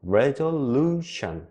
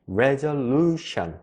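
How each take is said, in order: First: The syllable 'lu' is clearly stressed, rhythmically. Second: The syllable 'lu' is clearly stressed, rhythmically.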